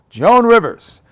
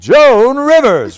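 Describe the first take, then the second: First: The name is said plainly, without extra force. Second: The name is said big and boldly.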